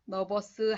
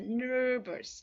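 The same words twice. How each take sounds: First: The first syllable has no curled R sound. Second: The first syllable has a curled R sound. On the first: The speaker calls it wrong. "nervous 하시면 안 되는 거 아시죠?" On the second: The speaker calls it right. "혀를 안으로 쫙 끌고 가셔야 돼요"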